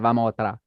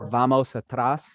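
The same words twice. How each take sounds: First: The word endings are clipped off. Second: Every word ending is fully pronounced. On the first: "they often don't finish the end of the word" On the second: "instead of saying like"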